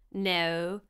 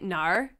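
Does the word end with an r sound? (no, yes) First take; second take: no; yes. First: The word ends without any r sound. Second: The word ends with an r sound. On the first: The speaker calls it right. "like your toe ... There's no R" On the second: The speaker calls it wrong. "we don't say Nar? ... Like where's the R?"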